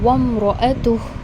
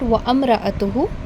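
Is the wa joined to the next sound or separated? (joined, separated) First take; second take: joined; separated. First: The wa runs straight into the m sound. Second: The wa is followed by a separate a sound. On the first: The speaker calls it right. "we have seen wamra'atuh" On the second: The speaker calls it wrong. "it is not wa amra'atuhu"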